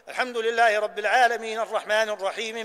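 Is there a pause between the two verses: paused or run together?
run together. The verses run together without a pause. The verses are joined without stopping at their ends. The speaker calls it wrong. "وإياك أن تقول ... هذا خلاف السنة"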